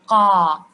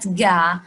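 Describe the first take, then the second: First: It starts with a k made deep in the throat. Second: It starts with a voiced g sound. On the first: The speaker calls it right. "This is the right way to pronounce the qaf" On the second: The speaker calls it wrong. "not ga"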